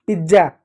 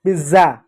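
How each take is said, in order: First: पिज्जा with a j sound, "pij-ja"; hard doubled j in पिज्जा; wrong pronunciation. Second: पिज्जा with a buzzing z, "piz-za"; correct pronunciation. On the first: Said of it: "गलत है". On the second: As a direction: swap the j of पिज्जा for z. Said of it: "जा होता है". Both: Shown as a demonstration.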